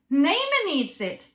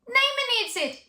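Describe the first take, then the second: First: A lighter voice is used without pushing. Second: A heavy chest voice is pushed up high. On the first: The speaker calls it right. "see if you can find a lighter" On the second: The speaker calls it wrong. "they push their chest voice higher"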